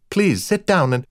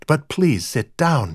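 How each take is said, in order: First: Higher woman's voice; flustered hostess. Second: Slow, drawn-out courtly insistence; brittle gallantry. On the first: Rita waves the guest to the couch, flustered. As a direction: offer a seat, breaking off mid-thought. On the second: Brian courts his brother's wife, with brittle gallantry. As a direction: urge her to sit, over-courteously. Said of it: "stepped forward with brittle gallantry". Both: A narrator's reading.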